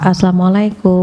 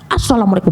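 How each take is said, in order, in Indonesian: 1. Diucapkan dengan nada lembut dan rendah. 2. Diucapkan dengan nada marah dan ketus. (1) "kalau dengan nada rendah" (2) "masa doa dimarah-marahin"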